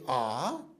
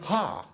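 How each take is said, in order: First: The vowel starts plainly, without breath. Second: The vowel starts with a breathy h. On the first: "we can say ah" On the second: "if I am doing an aspirated version, so uh, emphasizing it, then I say ha"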